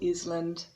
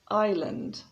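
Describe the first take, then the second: First: The S sound is pronounced in the word. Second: The S sound is silent in the word. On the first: The speaker calls it wrong. "So it's not Iceland or Island" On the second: The speaker calls it right. "Notice that the S is silent"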